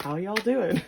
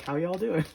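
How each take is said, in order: First: Put-on light Southern accent, a bit louder; breezy Southern accent walking into a room; Southern greeting. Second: Dry, tongue-in-cheek greeting; sarcastic greeting. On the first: Crush entering a room, mild Southern accent. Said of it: "Maybe they're from the South". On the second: Retold or imitated. Crush greeting someone, mock sarcastic tone. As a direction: say it as a joke, not meant. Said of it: "funny, sarcastic way".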